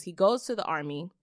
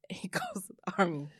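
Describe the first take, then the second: First: Said in the usual way. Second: Breathy laugh-whisper, disbelief. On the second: Real, not acted. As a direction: giggle it out under your breath. Repeats it, laughing.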